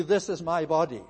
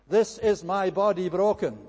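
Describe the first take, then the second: First: Said in the usual way. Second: "broken" leaned on, louder, with a falling close; stress on broken. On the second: Shown as a demonstration. Preacher contrasting the bare words with "broken", stressing broken. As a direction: land hard on "broken". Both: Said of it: "That's the emphasis".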